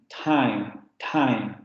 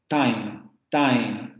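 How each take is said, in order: Both takes have the same delivery.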